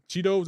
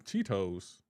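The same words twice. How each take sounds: First: Cheetos mimicked as CHEE-doze; mispronounced with D. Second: Cheetos with a clear T, CHEE-toes; Cheetos without D. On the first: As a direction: put a D in the middle of Cheetos. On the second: Shown as a demonstration. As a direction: sound the T fully in Cheetos. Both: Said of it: "there's no D in Cheetos".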